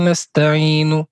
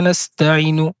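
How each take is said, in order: First: The vowel before the n is drawn out long. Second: The vowel before the n is cut short. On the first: The speaker calls it right. "avec la prolongation" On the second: The speaker calls it wrong. "supprimer une prolongation naturelle"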